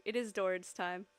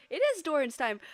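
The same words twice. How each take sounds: First: Said in the usual way. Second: Loud, high hype-man announcement; announcer hype. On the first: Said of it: "It's Doran's time, guys!". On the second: Pretend. Streamer hyping Doran's arc to chat, loud announcer voice. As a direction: boom it out like an intro announcer.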